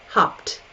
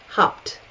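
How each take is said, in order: The two takes are said the same way.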